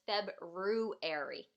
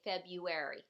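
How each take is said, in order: First: February said as written, with the R after the B: Feb-ru-ary; spelled-out February. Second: February said Feb-yu-ary, first R dropped; everyday February. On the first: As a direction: sound out every letter of February, Feb-ru-ary. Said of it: "It's almost like it says February". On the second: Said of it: "We just say February". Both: Shown as a demonstration.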